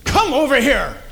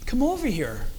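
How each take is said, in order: First: Loud, sharp summons; harsh order. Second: Soft, easy summons; gentle invitation. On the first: Showing how tone changes a call to come, harsh. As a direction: order them over with force. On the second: Showing how tone changes a call to come, gentle. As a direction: beckon kindly, no pressure. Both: Shown as a demonstration. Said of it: "but how we say it".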